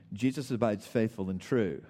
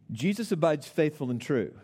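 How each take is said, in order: First: Said in the usual way. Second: "Jesus abides faithful and true" restated higher, with firmer emphasis; emphatic restatement. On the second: Real, not acted. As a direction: say "Jesus abides faithful and true" again as a key point, pitched up. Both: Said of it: "let me say it again".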